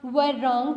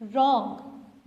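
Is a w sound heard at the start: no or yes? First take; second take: yes; no. First: A w sound comes before the r. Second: The word begins directly with the r. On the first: The speaker calls it wrong. "इसको आप व रॉन्ग तो नहीं कहते" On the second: The speaker calls it right. "आप क्या कहते हैं?"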